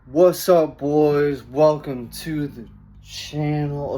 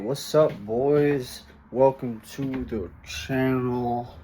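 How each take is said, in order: First: It is said with stronger, higher energy. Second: It is said with weak, low energy.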